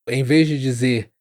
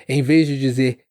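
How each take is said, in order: No difference in how they are said.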